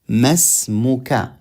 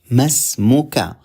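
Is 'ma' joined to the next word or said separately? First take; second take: joined; joined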